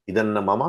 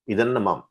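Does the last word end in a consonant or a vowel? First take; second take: vowel; consonant. First: The last word ends in a full vowel. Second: The last word ends in a bare consonant. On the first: "पूरा" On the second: "आधा"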